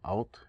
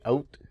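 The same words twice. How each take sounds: First: The vowel is said the American way. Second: The vowel is said the Canadian way. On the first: "or however they say it here in America" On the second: "in Canada we say out"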